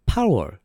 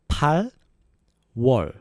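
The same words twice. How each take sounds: First: The word is said quickly and smoothly. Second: The word is said slowly and carefully. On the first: "So faster that would be" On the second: "August is 8월"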